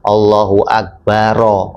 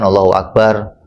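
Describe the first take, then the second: First: The final r carries an added 'a' vowel. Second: The final r is bare, with no vowel. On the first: The speaker calls it right. "Sunnah difathahkan Allahu Akbaro" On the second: The speaker calls it wrong. "Kan orang umumnya sukun semua kan"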